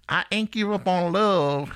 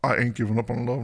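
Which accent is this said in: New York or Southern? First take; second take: Southern; New York. First: It is said in a Southern accent. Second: It is said in a New York accent. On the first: The speaker calls it right. "You have to almost have a southern accent when you say that" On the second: The speaker calls it wrong. "Can it be like a New Yorker thing?"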